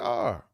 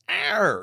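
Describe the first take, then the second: First: The R is said plainly without extra effort. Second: The R is strongly over-enunciated with effort. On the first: This is the ordinary way to say it. The speaker calls it right. "just say R" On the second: This is how people from that city say it. The speaker calls it wrong. "it takes a lot of energy for them to say"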